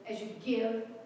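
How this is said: The stress falls on the word give. The focus is on the act of giving. The speaker calls it wrong. "many of us put the emphasis on the give"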